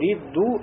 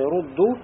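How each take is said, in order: First: The first vowel is i. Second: The first vowel is u. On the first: This is a rare reading. "сказали, да, прочли" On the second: This is the usual reading. "вместо того, чтобы сказать рудду"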